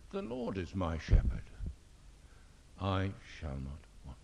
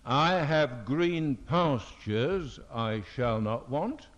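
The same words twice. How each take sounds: First: "Lord" leaned on, the rest quicker and softer; stress on LORD. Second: Slow, deliberate reading of "I have green pastures, I shall not want"; wrong emphasis. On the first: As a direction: hit "Lord" in "The Lord is my shepherd". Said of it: "this is exactly the emphasis". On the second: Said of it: "It does not say". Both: Shown as a demonstration.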